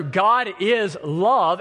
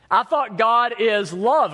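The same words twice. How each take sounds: First: Slow, weighty stress on "God" in "God is love"; very slow, emphatic "God is love"; firm affirmation. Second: Raised, puzzled "I thought God is love"; higher, slow questioning "love"; doubtful question. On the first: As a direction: land "God is love" as settled truth, word by word. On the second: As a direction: ask "God is love" as if it can't square with hate. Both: Shown as a demonstration. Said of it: "And that is true".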